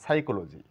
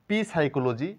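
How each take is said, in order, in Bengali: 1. শুরুতে কোনো 'p' ধ্বনি উচ্চারণ করা হয় না। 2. শুরুতে 'p' ধ্বনিটি উচ্চারণ করা হয়। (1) "এখানে পি এর কোনো সাউন্ড নেই" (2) "এটাকে পি সাইকোলজি বলতে পারি না"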